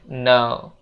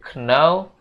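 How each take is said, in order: First: The word begins with an N sound only. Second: The word begins with a pronounced K sound. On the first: The speaker calls it right. "tapi dibacanya no" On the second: The speaker calls it wrong. "huruf K itu jangan dibaca ya guys. Jangan dibaca know"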